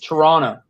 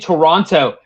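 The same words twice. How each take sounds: First: The second t is dropped, three syllables. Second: Both t sounds are pronounced, three full syllables. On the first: The speaker calls it right. "You don't pronounce the other T. It's Toronto" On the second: The speaker calls it wrong. "you got me saying Toronto"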